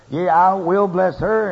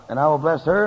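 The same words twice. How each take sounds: First: "Yea, I will bless her" stretched out, slow and a bit louder; slow emphatic repeat. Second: Said in the usual way. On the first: Shown as a demonstration. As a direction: lean slowly on "bless her" to drive it home. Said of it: "repeats verse with emphasis". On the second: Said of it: "reads verse, then repeats it".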